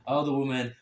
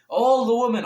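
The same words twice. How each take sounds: First: Said in the usual way. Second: ALL THE WOMEN blasted high and loud; "all the women" in a loud, high outburst; emphatic repeat. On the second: Real, not acted. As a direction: hit "all the women" hard, pitch jumping up.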